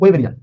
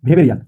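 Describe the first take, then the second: First: The name begins with a W sound. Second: The name begins with a V sound. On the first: The speaker calls it wrong. "আপনারা নিশ্চয়ই এটাকে বলছেন ওয়েবেরিয়ান" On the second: The speaker calls it right. "ডাব্লিউ কে উচ্চারণ করা হয় ভি। এই কারণে এটার উচ্চারণ হবে ভেবেরিয়ান"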